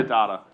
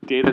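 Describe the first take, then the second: First: First syllable of "data" as "dah"; DAH-tuh pronunciation. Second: First syllable of "data" rhymes with "day"; DAY-tuh pronunciation. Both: Shown as a demonstration. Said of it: "our enunciation of various terms".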